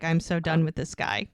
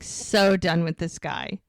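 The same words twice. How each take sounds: First: Said in the usual way. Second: "so" drawn out and leaned on, slow line; slow it down, punching "so"; stress on "so". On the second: Retold or imitated. Repeats it slowly for emphasis.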